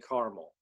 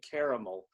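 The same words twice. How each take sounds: First: Said with a non-Southern US pronunciation. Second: Said with a Southern US pronunciation. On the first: This is how locals expect it to be said. "I'm told up here I'm supposed to say caramel" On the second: This is how it is said back home. "I'm from the South, so I say caramel"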